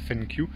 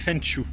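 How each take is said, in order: First: The second syllable starts with a 'ky' sound. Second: The second syllable starts with a 'sh' sound. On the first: The speaker calls it wrong. "pas euh, Fenkyu, comme je vous disais depuis hier" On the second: The speaker calls it right. "Ça se dit Fenshu"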